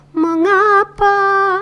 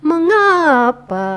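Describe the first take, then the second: First: "Mengapa" high and held, very drawn out; song-like intonation. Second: "Mengapa" starting high and sliding down; falling intonation. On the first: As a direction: stretch "Mengapa" on a high sustained note. ("Mengapa" bernada tinggi dan dipanjangkan) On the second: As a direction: draw out "Mengapa", letting the tune drop. ("Mengapa" panjang dengan nada turun) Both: Shown as a demonstration. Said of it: "naik turunnya ya, kayak sebuah lagu".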